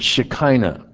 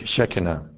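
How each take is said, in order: First: The word has an anglicized pronunciation. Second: The word has a Hebrew pronunciation. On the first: The speaker calls it wrong. "that's not the correct pronunciation" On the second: The speaker calls it right. "The Hebrew pronunciation is"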